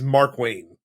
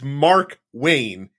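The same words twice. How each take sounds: First: The name is said run together as one word. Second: The name is said as two separate words. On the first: The speaker calls it right. "Like one word, two names, one word together" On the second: The speaker calls it wrong. "it's not like Mark Wayne"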